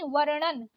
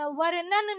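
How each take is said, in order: First: वर्णन with curled-tongue ण after र; correct retroflex ण. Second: वर्णन with plain न after र; wrong dental N. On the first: Teacher correcting learners, retroflex वर्णन. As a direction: curl back for ण in वर्णन. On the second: Teacher showing learners the mistake, dental-N वर्णन. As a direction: say वर्णन as वर्नन. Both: Shown as a demonstration. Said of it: "नहीं".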